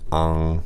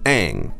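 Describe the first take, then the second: First: The vowel is an open 'ah' before ng. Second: The vowel is an 'ay' sound before ng. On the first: The speaker calls it wrong. "that would pronounce an ong sound" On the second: The speaker calls it right. "teach you how to pronounce it correctly"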